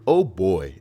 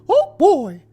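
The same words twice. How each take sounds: First: It is said in his normal voice. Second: It is said in a Mickey Mouse voice.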